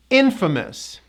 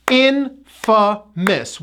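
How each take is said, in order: First: "Infamous" joined as IN-fuh-mus, high start; no A vowel. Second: "Infamous" very slow, IN, FUH, MUS; syllable breakdown. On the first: Teacher repeats the whole word, connected "Infamous" stressed on IN. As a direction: reduce the A in "Infamous" to uh. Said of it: "We do not pronounce that A vowel". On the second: Teacher breaks down the word, slow split "Infamous". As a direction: separate the three syllables of "Infamous". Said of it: "Three syllables". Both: Shown as a demonstration.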